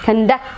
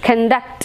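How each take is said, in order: First: The stress is on the second syllable. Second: The stress is on the second syllable.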